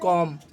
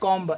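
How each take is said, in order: First: The word ends in m with no b. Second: The word ends with an audible b sound. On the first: The speaker calls it right. "बी को silent रखना है" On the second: The speaker calls it wrong. "ये नहीं कि ... ऐसे नहीं करना है"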